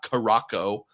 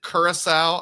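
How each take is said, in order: First: The word is said as 'Caraco'. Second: The word is said as 'Curacao'. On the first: The speaker calls it wrong. "not Caraco" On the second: The speaker calls it right. "I think I've heard that before"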